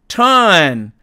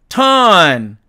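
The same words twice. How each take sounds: No difference in how they are said.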